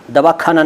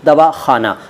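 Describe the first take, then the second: First: दवाखाना with a hard kh, as the wrong form; wrong pronunciation. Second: दवाखाना with a throaty x sound on खा; correct pronunciation. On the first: Teacher demonstrating the wrong दवाखाना again. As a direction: say दवाखाना with plain kh as the error. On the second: Teacher giving the correct दवाखाना again. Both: Shown as a demonstration. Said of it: "दवाखाना नहीं".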